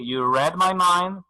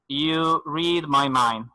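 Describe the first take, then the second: First: The word read has a short e vowel. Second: The word read has a long ee vowel. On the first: It happened in the past. "me leyó la mente" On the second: It happens in the present. "if the verb is mentioned in present"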